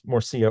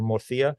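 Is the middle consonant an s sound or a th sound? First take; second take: s sound; th sound. First: The middle consonant is an s sound. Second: The middle consonant is a th sound. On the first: This is how outsiders say it. The speaker calls it wrong. "they will uh, get on you for pronouncing it as" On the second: This is how the old local families say it. The speaker calls it right. "pronounce it with that um, old world sort of accent of uh, the, the sort of th sound"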